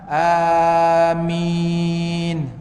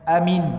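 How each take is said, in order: First: The vowels are stretched out long. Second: The vowels are cut very short. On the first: "dipanjangkan empat dan enam" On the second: "pendek sangat-sangat tu"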